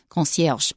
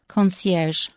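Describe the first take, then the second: First: It is pronounced with a French accent. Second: It is pronounced with an American English accent. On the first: "In real French, it's more like concierge" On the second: "I said it with an American pronunciation"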